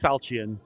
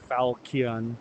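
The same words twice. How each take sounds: First: The 'ch' is said with a soft sound. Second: The 'ch' is said as a hard K. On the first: "I think it's Falchion" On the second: "Some people pronounce it with a hard K like"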